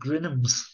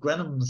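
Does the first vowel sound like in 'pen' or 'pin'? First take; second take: pin; pen. First: The first vowel sounds like the i in pin. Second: The first vowel sounds like the e in pen. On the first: This is the local pronunciation of the name. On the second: This is the usual pronunciation of the name.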